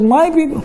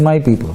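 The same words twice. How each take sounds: First: "My" pitched much higher and leaned on hard; "My people" with "My" punched high; stress on MY. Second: Said in the usual way. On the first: Retold or imitated. Preacher mimicking God claiming the people, stressing MY. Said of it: "You said". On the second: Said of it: "He's not saying".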